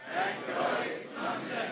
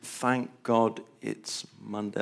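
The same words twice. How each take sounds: First: It is said with great passion and joy. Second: It is said plainly, without strong feeling.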